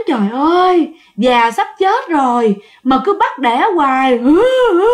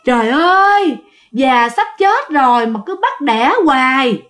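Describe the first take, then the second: First: Wailing lament ending in sobs; moan, then sob hard; sobbing moan. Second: Sobbing moan. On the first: The crying sow heard through the window, sobbing. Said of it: "cái tiếng". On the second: The sow moans to itself in a sobbing wail. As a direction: wail like a tired old sow. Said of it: "cái tiếng nói là nức nở, rên rỉ lắm". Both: Retold or imitated.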